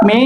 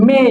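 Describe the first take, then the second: First: মে short, as plain "me"; wrong pronunciation. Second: মে as MEY, gliding vowel; correct pronunciation. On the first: Teacher rejecting the usual form, wrong pronunciation. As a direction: say মে with a short pure vowel. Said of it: "not মে". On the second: Teacher giving the right form, correct pronunciation. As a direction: say মে drawn out as "mey". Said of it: "হচ্ছে". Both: Shown as a demonstration.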